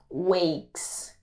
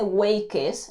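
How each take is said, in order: First: The ending is a plain s sound. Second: The ending is said as an extra syllable. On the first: The speaker calls it right. "simplemente se dice wakes, con la s al final" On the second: The speaker calls it wrong. "aquí no se dice wakes"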